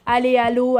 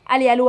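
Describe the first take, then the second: First: The words are repeated at a moderate pace. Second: The words are repeated as fast as possible. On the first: "répéter ces deux mots ben, à la suite" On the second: "le faire le plus rapidement possible"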